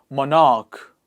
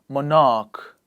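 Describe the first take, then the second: Both takes have the same delivery.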